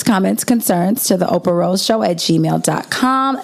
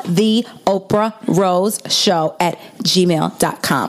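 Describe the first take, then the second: First: Said in the usual way. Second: Slow and clear. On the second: Shown as a demonstration. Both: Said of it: "Since I talk very fast".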